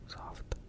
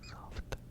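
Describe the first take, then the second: No difference in how they are said.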